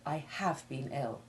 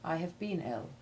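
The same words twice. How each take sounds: First: The verb is stressed with a full vowel. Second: The verb is full but said without stress. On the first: "put special stress on the severity of the illness" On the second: "rather than"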